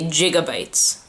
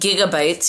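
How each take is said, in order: First: The word begins with a J sound. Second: The word begins with a hard G sound. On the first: This is how people locally say it. "They pronounce the first G as a J" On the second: This is the usual way to say it. "instead of saying gigabytes"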